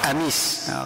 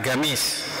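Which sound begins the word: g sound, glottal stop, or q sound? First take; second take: glottal stop; g sound. First: The word begins with a glottal stop. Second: The word begins with a hard g sound.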